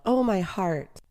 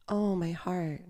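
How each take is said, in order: First: Anguished cry, pitched higher, falling away. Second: Softly soothing echo; coaxing, soothing. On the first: Queen of the underworld writhing in pain, crying out. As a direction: moan it out in mild anguish. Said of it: "she cries out". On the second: Demons echo the suffering queen, coaxing and soothing. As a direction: repeat it gently, as though sharing the pain. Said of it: "repeat her in a coaxing, soothing manner". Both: A narrator's reading.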